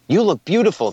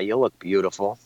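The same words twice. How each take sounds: First: It is said warmly and sincerely. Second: It is said offhand and dismissively. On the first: The compliment is genuinely meant. "And you may smile and you'll feel good" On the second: The compliment is not really meant. "there's an inflection and it hits you a different way"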